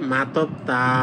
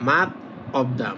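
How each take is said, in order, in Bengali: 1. শেষের ব্যঞ্জনটা পরের শব্দে চলে যায়। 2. শব্দ দুটো আলাদা করে বলা হয়, একসাথে জোড়া লাগে না। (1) "শিউটার উচ্চারণ অনেকটা থয়ের মতো করবেন" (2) "মাত এটা একটা শব্দ, আবার অপ্তা এটা একটা শব্দ"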